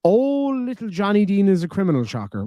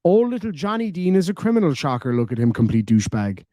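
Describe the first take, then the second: First: Sneering mock newsreader voice, high on the oh; mocking read. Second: Mocking read without pauses. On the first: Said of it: "let me try this again". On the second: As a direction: run the whole message together with no stops, sneering. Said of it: "full stop button and your comma button broken". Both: Shown as a demonstration.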